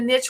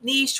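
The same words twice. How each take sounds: First: The vowel is short, rhyming with pitch. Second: The vowel is long, rhyming with leash. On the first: "a niche would be N I T C H" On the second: "niche would be N E E"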